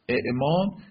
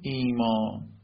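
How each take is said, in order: First: A second glottal stop comes before the m. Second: A long i vowel comes before the m. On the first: "همزه دوم ساکن، همزه اول متحرک" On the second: "همزه دوم تبدیل می شود به یا امدی"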